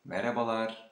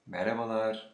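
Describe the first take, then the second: No difference in how they are said.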